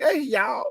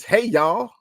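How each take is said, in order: First: "Hey, y'all" drawn out in a much higher Southern twang; Southern accent. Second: Said in the usual way. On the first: Shown as a demonstration. Podcast host redoing a fan's greeting, Southern accent. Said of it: "with the Southern accent". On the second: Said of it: "All right, with the Southern accent".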